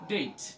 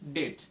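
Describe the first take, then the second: First: The vowel is a long ei sound. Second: The vowel is a short sound. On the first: The speaker calls it right. "এটা long sound হয়ে যাবে" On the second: The speaker calls it wrong. "Not ডেট"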